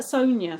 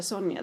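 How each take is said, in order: First: First "Sonia" as "SOHN-ya", long "o". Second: Second "Sonia" as "SON-ya", short "o". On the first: Co-host cites how they say the name, long-o pronunciation. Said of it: "what about Sonia for Sonia, they say". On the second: Co-host gives the usual name, short-o pronunciation. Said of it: "for Sonia, they say". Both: Shown as a demonstration.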